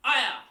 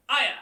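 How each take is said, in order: First: Higher, louder kiai shout on the final punch; keyed-up kiai. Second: Quick kiai shout. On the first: Instructor demonstrates the keyed-up final punch: higher, louder kiai. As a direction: push the final shout up in key. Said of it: "at the final punch of each one of those sections, you key up". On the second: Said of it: "fast punch, we're gonna go". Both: Shown as a demonstration.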